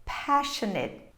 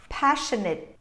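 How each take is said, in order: Both takes have the same delivery.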